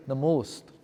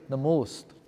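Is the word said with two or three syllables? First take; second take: two; two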